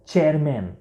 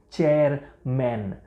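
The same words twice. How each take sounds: First: Said in the usual way. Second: ચેરમેન split as ચેર, then મેન; word by parts. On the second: Shown as a demonstration. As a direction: model ચેરમેન in two separate beats. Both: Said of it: "ઉચ્ચાર જુઓ".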